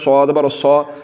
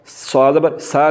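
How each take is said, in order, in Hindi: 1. हरफ़ भारी और पुर बोला जाता है। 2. हरफ़ बारीक और हल्का बोला जाता है। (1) "सौ पुर करके" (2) "सा नहीं पढ़ना, सा ये बरीक है"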